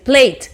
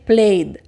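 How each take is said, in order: First: The word ends with a voiceless t sound. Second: The word ends with a voiced d sound. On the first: The speaker calls it wrong. "no vas a decir plate" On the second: The speaker calls it right. "Debe terminar en D"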